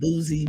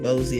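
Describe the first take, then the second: First: The first vowel is a long 'oo' sound. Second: The first vowel is an 'oh' sound. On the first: This is how other people say the name. "I hear people call him Boozy, but I would think that's two O's" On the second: This is how the speaker said the name. "But I said Bozy"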